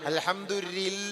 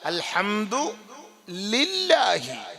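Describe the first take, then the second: First: The ending is clipped to a short 'la'. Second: The ending is a full, long 'lahi'. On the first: The speaker calls it wrong. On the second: The speaker calls it right.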